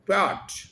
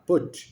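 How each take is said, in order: First: The vowel is a full 'o' sound. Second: The vowel is a short 'u' sound. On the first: The speaker calls it wrong. "ये इसकी आवाज होगी पॉट" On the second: The speaker calls it right. "ऊ है छोटा, पुट"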